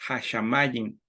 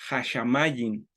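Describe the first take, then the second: The two takes are said the same way.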